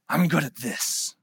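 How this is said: It is said in a strong, commanding, regal tone. "It was like the tone of a king and a warlord"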